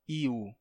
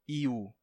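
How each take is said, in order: Both takes have the same delivery.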